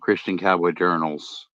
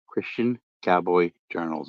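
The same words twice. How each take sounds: First: The phrase is said quickly. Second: The phrase is said slowly and clearly. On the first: The speaker calls it wrong. "I don't want to keep saying that too fast" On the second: The speaker calls it right. "Make sure I say it slow and clearly"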